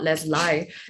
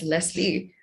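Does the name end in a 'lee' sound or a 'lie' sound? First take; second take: lie; lee. First: The name ends with a 'lie' sound. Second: The name ends with a 'lee' sound. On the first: The speaker calls it wrong. "not Leslie, because I clearly would never lie to you" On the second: The speaker calls it right. "it's pronounced as Leslie"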